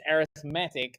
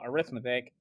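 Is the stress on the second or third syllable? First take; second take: third; second. First: The stress is on the third syllable. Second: The stress is on the second syllable. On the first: It names the kind of sequence. "The reason it's arithmetic" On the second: It names the branch of mathematics. "and not arithmetic"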